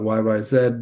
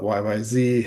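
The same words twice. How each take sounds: First: The last letter is said as Canadian 'zed'. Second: The last letter is said as American 'zee'.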